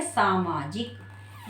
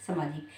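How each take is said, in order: First: सामाजिक slowly, with long first aa; as written. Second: सामाजिक quickly, with short first vowel; as spoken. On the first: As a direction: stretch सामाजिक out as "saa-maa-jik". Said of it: "लेकिन लिखेंगे". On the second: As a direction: say सामाजिक as "samajik". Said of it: "लेकिन लिखने में क्या लिखेंगे?". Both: Shown as a demonstration.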